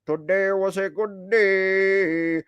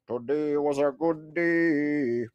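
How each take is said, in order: First: Rapped, drag out the hook in the goofy character voice; Spherage voice rap. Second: Slower, lower and softer backing echo; low echo of the hook. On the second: Streamer echoes his own hook, low and soft. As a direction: answer the hook like a low backup singer. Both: Acted. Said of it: "sing in Spherage's voice".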